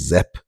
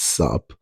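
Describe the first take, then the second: First: The word begins with a z sound. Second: The word begins with an s sound. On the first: The speaker calls it wrong. "he's pronouncing it as Zep, but it's not Zep" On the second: The speaker calls it right. "it's sup"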